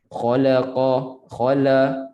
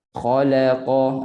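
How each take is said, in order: First: "Khalaqa, khala" with la darkened a little by its heavy neighbours; slightly thick la. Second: Slow "Khalaqa" with la light, untouched by the heavy letters; thin la. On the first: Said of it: "tebal dah tu sikit". ("Khalaqa, khala" dengan la tebal sikit) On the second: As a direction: keep a clearly thin la inside "Khalaqa". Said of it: "biar bunyi nipis". ("Khalaqa" dengan la nipis, tak terpengaruh) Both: Shown as a demonstration.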